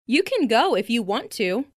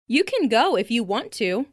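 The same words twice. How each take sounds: The two takes are said the same way.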